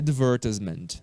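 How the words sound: It is said with a British pronunciation. "pronúncia britânica é advertisement"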